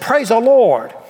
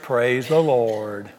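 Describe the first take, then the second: First: It is said loudly, with excited feeling. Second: It is said flatly, without feeling. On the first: The speaker calls it right. "Passionate. Celebration" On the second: The speaker calls it wrong. "Is that what it says? I've had about all the passionless mess I can take"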